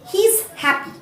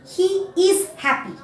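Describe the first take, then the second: First: He and is are joined into one syllable. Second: He and is are said fully and separately. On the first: The speaker calls it right. "I will say he's happy" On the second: The speaker calls it wrong. "I will not say he is happy"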